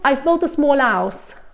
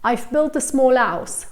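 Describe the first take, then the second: First: The H at the start of house is dropped. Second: The same.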